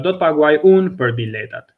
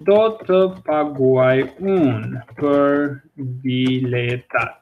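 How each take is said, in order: First: Said in the usual way. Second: Slow, separated words; careful word-by-word teaching pace; slow model sentence. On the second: Shown as a demonstration. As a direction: dictate it slowly to learners. Teacher models the example sentence slowly.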